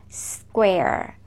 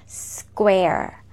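First: The opening consonants are run quickly together. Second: The same.

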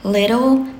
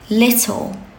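First: The T is soft, American style. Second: The T is crisply pronounced, British style. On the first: The speaker calls it wrong. "we don't say little, better, bitter, like American" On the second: The speaker calls it right. "enunciate your T's"

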